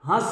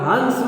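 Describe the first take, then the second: First: The vowel is only lightly nasalized, syllable stays short. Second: A full nasal consonant makes the syllable heavier. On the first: It means to laugh. "हंस माने laughing" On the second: It means a swan. "हंस माने वो स्वान"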